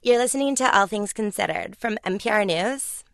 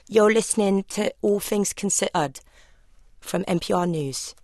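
First: It is said in a squeaky toy voice. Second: It is said in a Southeast London accent.

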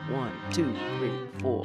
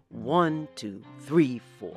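First: The stress falls on two and four. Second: The stress falls on one and three. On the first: This is the jazz and swing feel. "It's on the two and the four" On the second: This is the European classical feel. "the rhythmic emphasis is on the first beat and the third beat of the measure"

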